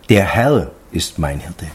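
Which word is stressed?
Herr. The stress falls on the word Herr. It is this great Lord who is the shepherd. "Also der Herr, der das alles gemacht hat"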